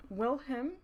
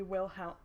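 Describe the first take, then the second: First: "Wilhelm" turned into WILL-him; punning pronunciation. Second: "Wilhelm" ending in -helm; name said straight. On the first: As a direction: end "Wilhelm" on the word him, as a pun. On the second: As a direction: say "Wilhelm" plainly with the l before m. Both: Shown as a demonstration. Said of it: "'cause I'll never be him".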